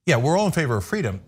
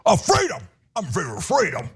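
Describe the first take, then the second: First: Said in the usual way. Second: Mock Southern accent. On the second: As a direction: mimic a simpleton in an exaggerated Southern accent. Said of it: "what's up with the Southern accent".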